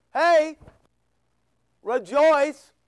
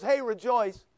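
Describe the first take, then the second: First: Loud, punchy HEY, then REJOICE; emphatic call. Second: Said in the usual way. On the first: Acted. The Lord urging believers to rejoice, emphatic loud call. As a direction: call it out louder, with a break after HEY. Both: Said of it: "Kinda like the Lord goes".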